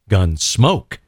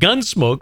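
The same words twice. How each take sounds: First: The stress is on the second syllable. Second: The stress is on the first syllable. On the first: This is how the radio show's title was said. The speaker calls it right. "with the emphasis on the second half of the phrase there" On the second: This is how the television show's title was said. The speaker calls it wrong. "it wasn't Gunsmoke like on television"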